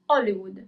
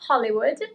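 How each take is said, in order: First: It begins with a vowel, no h sound. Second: It begins with an audible h sound. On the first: This is the Italian way. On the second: This is the English way.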